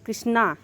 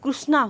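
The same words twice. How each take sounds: First: The first syllable is said as 'kri'. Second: The first syllable is said as 'kru'. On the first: This is how it is said in Bihar and Delhi. "Bihar Delhi में कृष्णा" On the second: This is how it is said in Odisha and Maharashtra. "Odisha Maharashtra में कृष्णा"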